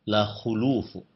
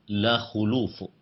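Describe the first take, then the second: First: The vowel after kh is u. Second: The same.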